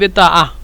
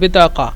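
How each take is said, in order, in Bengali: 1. মাঝের ব্যঞ্জনটি glottal stop. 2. মাঝের ব্যঞ্জনটি k ধ্বনি।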